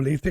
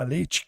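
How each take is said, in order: First: The final syllable is a plain 'te' sound. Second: The final syllable is a palatalized 'tchi' sound. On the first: This is how the southern dialect says it. "lá no dialeto meridional" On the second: This is how people here say it. "a gente reduz o E para ir, palataliza"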